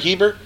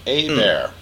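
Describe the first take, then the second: First: The name starts with a pronounced H sound. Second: The H is silent and it starts with 'ay'. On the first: The speaker calls it wrong. "It looks like Hebert" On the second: The speaker calls it right. "H is silent, E's like an A"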